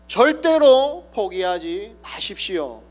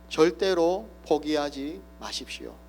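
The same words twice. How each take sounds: First: It is shouted with full force. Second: It is said somewhat louder than before. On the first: "온 힘을 다하여서 외칩니다" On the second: "조금 더 큰 소리로"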